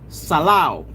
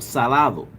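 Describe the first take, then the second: First: The d sound before the last vowel is dropped. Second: The d sound before the last vowel is pronounced. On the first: "But Puerto Ricans say salao" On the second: "salty in Spanish is salado"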